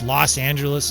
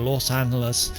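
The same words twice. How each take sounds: First: The name has an anglicized American pronunciation. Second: The name has a Spanish-style pronunciation. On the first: This is how Americans commonly say it. The speaker calls it wrong. "it's Los Angeles" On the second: This is the name's original pronunciation. The speaker calls it right. "instead of Los Angeles"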